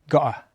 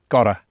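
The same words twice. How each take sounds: First: The middle t is a glottal stop. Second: The middle t is a light tap. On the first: This is how people in the south of the UK say it. "they tend to use what's called the glottal stop, when it sounds more like gotta" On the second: This is how people not from the south of the UK say it. "Whereas I say gotta, because I'm not from the south of the U K"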